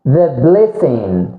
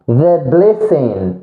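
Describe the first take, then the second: No difference in how they are said.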